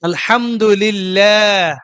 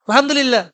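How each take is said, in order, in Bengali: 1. 'lah' এর স্বরটি লম্বা করে টানা হয়। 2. 'lah' এর স্বরটি ছোট করে, তাড়াতাড়ি কেটে পড়া হয়। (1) "এটার মধ্যে তাবাই একালিফ টানতে হবে" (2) "এত হটে গেলে আলহামদুলিল্লাহ। এ ভুল"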